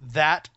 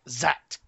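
First: The word begins with a normal 'th' sound. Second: The word begins with a 'z' sound. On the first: The speaker calls it right. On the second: The speaker calls it wrong.

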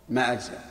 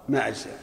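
Both takes have the same delivery.

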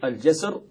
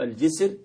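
First: The first vowel is 'a' (jasr). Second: The first vowel is 'i' (jisr). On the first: "أو الفتح" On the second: "بالكسر"

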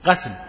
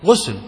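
First: The first vowel is an open 'a' sound. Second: The first vowel is a rounded 'u' sound. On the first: This is the form the language scholars prefer. "الفتح أفصح غسل" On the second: This is the form the jurists use. "غسل بالضم"

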